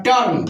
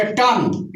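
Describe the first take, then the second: First: Said in the usual way. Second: टर्न said as "tun", r dropped; silent r. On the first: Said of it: "तो इसका pronunciation है". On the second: Shown as a demonstration. Teacher shows phonetic reading, टर्न without its r. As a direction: say टर्न with no r before the n. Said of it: "इसको ही बोलेंगे".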